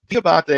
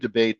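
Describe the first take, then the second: First: The name is said with Italian-style vowels. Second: The name is said with an Americanized sound. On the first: "the Italian pronunciation of my name" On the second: "Americanized it years ago to"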